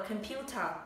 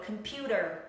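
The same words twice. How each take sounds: First: It is said with a British accent, crisp T. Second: It is said with an American accent, flapped T. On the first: "Trong tiếng Anh chúng ta sẽ đọc là" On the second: "Anh Mỹ sẽ đọc là"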